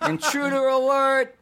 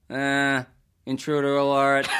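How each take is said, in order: First: High buzzing larynx-box alarm; alarm shout. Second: Artificial larynx voice. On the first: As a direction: blare it like an electrolarynx alarm. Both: Retold or imitated. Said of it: "Reference to a classic video game".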